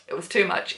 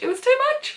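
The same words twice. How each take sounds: First: Said in the usual way. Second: Very high, emotional squeak; overcome squeal. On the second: Real, not acted. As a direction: repeat it with the voice shooting way up. Repeats it, overcome by the book.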